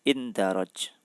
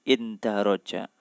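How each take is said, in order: First: The word ends on a consonant, vowel dropped. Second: The word ends with a final vowel sound. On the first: This form suits the rhyme of the verse. "tapi di situ dibaca indaroj" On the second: This is the usual form of the word. "Harusnya kan indaroja"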